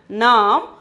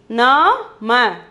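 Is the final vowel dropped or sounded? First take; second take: dropped; sounded. First: The word ends on the consonant, vowel dropped. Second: The word ends with a short vowel sounded.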